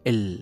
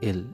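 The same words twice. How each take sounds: First: The L is said with force, tongue pressed. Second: The L is said softly and lightly. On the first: The speaker calls it right. "একটু জোর দিয়ে বলতে হবে এল" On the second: The speaker calls it wrong. "খুব সহজভাবে যে এল"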